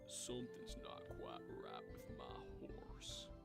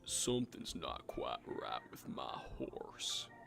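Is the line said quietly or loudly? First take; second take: quietly; very loudly. First: The line is said quietly. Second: The line is said very loudly.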